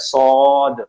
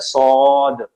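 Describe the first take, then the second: First: The vowel follows the consonant directly. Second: The same.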